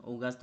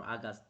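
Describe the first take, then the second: First: August said OH-gast, rounded first vowel; August with OH start. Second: August said AH-gast, open first vowel; August with AH start. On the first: Tutor comparing two ways to say it, August as OH-gast. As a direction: open August on a long "o". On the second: Tutor comparing two ways to say it, August as AH-gast. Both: Shown as a demonstration. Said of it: "I don't know how to pronounce this one".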